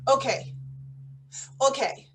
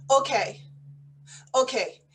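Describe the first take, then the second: No difference in how they are said.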